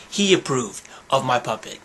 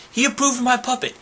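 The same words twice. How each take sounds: First: Said in the usual way. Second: Quick, high, delighted brag; proud high-voiced announcement; high-pitched boast. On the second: Real, not acted. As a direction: squeal it out quickly. Boasting, then repeating it plainly.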